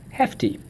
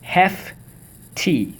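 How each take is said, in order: First: Said in the usual way. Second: HEFTY in two high, separated syllables. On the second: Shown as a demonstration. Teacher leading the class through the word, syllable by syllable. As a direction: sound out HEFTY as hef, pause, tee. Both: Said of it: "Let's go".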